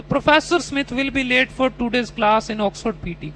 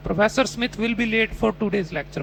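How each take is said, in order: First: Slow mock student with a made-up ending; imitating the student's answer. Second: Slow, careful reading of the test sentence; slow model reading. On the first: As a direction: finish the sentence confidently with anything. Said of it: "तो". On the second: Shown as a demonstration. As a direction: read the prompt slowly. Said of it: "ये बच्चा हर बार ग्यारह".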